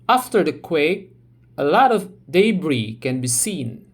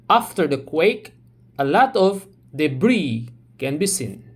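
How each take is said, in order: First: Debris is said with a British accent. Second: Debris is said with an American accent.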